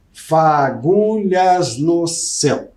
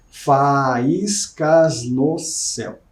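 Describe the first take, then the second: First: Syllable counting. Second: "Faíscas no céu" said slowly, fa-ís-cas no céu spaced out; syllable counting. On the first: Teacher scanning the last line for students, slow and syllabic. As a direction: tap out fa-gu-lhas no céu slowly. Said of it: "cinco de novo". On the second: Teacher testing a word swap for the class, slow syllable by syllable. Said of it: "Ó, vamos ver". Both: Shown as a demonstration.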